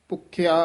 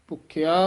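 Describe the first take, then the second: Both takes have the same delivery.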